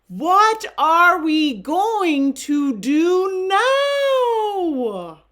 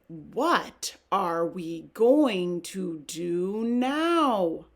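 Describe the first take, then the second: First: It is said in a louder voice. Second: It is said in a quieter voice.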